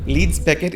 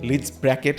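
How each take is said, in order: First: The second word sounds like 'Beckett'. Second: The second word sounds like 'Bracket'. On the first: The speaker calls it right. "Leeds Beckett is the name" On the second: The speaker calls it wrong.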